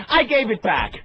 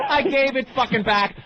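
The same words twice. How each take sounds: First: Raised, emphatic comeback; retold indignant retort; defiant retort. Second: Higher-pitched, exasperated repeat; retold, escalating indignation; angry retort. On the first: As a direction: fire back a defiant answer. Acted defiant reply to dealer. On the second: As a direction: hammer the comeback home angrily. Escalated repeat of defiant reply.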